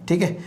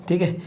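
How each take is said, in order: No difference in how they are said.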